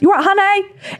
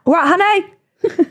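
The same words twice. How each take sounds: First: High, sing-song camp "You right, honey?"; camp sweet impression. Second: Slow, high sing-song "Right, honey?"; camp sweet impression. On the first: Mimicking James charming bar staff, high camp sing-song. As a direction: lilt it up sweetly like a camp friend. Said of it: "whenever James speaks to people, it's incredible". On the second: Mimicking James greeting a straight man, slow camp lilt. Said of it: "It can be the straightest ma".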